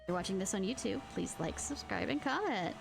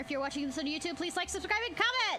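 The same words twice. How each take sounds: First: It is said more slowly. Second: It is said quickly.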